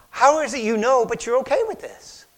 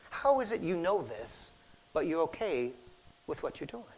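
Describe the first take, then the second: First: Louder incredulous challenge; incredulous question. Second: Softer, fading probing question; soft searching question. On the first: Retold or imitated. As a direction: ask it in loud disbelief. Friend questioning Don. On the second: Shown as a demonstration. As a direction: ask it gently and let it drop away. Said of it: "applied to God's question".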